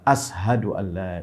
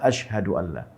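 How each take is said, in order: First: The first word uses a plain 's' sound. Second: The first word uses an 'sh' sound. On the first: The speaker calls it wrong. "Bilal menyebutnya dengan kalimat" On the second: The speaker calls it right.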